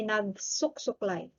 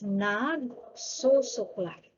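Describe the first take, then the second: First: Nagsusuklay with a K closing the first su, as nag-suk-suklay; nagsusuklay mispronounced as "nagsuksuklay"; wrong doubling. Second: Nagsusuklay slowly, with an open "su" before suklay; nagsusuklay drawn out, only "su" doubled; correct doubling. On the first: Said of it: "we don't need to say". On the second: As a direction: say nagsusuklay slowly as nag-su-suklay, no K after the first su. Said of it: "So it's nagsusuklay". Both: Shown as a demonstration.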